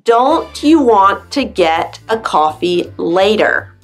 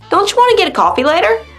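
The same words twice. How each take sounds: First: Each word is said fully and separately. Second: The words are reduced and run together. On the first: "you read" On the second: "we squish it all together when we speak"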